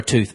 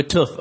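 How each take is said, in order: First: "tooth" with a long oo as in boot; long vowel in tooth. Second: "tooth" with a short oo as in foot; short vowel in tooth. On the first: Host quizzes friends on saying tooth, long-vowel "tooth". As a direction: say "tooth" to rhyme with "booth". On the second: Host quizzes friends on saying tooth, short-vowel "tooth". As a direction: say "tooth" to rhyme with "soot". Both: Shown as a demonstration.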